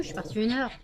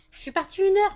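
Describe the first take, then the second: First: Said in the usual way. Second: Much higher, louder exasperated cry; exasperated high outburst. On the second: Real, not acted. Scene: owner exasperated by dogs jumping after one hour away, high loud. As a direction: pitch it up in exasperation.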